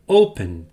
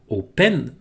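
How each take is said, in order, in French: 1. Il se dit avec des voyelles anglaises et un n final. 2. Il se dit avec des voyelles françaises et une fin nasale. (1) "ça se prononce open" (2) "ça se prononce pas open en anglais"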